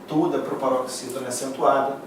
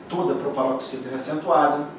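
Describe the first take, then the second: Both takes have the same delivery.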